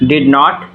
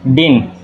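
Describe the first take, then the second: First: Both words are said fully and separately. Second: It is said as one short syllable, din.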